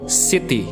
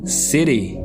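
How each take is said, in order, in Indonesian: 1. Huruf t dibaca tegas dan jelas. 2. Bunyi t-nya lembut, seperti d. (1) "dalam bahasa Inggris yang menggunakan aksen British, kata T dibaca dengan jelas" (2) "Dalam American accent itu uh, yang digunakan adalah huruf T-nya terdengar seperti D"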